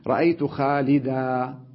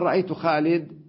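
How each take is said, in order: First: The final word ends with a long 'a' vowel. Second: The final word ends on a bare consonant. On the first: This is the usual way of pausing on the word. "هذا تنوين عوض" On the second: "تقف عليه بالسكون بدون مد"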